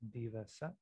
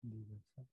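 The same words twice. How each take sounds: First: It is said at a normal volume. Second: It is said a little more quietly.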